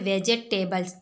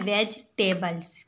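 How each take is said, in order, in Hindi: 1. यह शब्द veg और tables में नहीं बंटता। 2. यह शब्द veg और tables के रूप में बोला जाता है। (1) "जो बिल्कुल गलत तरीका है" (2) "वेज और टेबल्स दो हिस्सों में"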